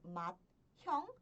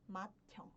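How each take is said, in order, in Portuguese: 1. Um t e um h são pronunciados separadamente. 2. Eles se fundem em um único som de t aspirado. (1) "Ao invés de pronunciar como" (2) "eu pronuncio"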